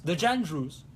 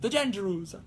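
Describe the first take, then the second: First: Put-on Italian accent. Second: Put-on heavier Italian accent on "the Jandrews", rolled "zhan-zher-oos". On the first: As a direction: say "the Jandrews" casually in a mild Italian accent. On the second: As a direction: lean harder into Italian for "the Jandrews". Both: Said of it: "saying a French name in an Italian accent".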